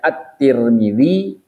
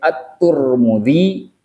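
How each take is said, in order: First: The first syllable of the name has vowel i. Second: The first syllable of the name has vowel u. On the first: "boleh At-Tir" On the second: "boleh At-Tur"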